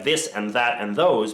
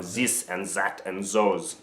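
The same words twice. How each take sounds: First: Said in the usual way. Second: "zis and zat and zos" with buzzing Z in place of TH; "zis", "zat", "zos", each opening on a clear Z; French-accent Z sounds. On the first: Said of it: "substitute T sounds for Z sounds". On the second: Shown as a demonstration. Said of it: "tend to substitute T sounds for Z sounds".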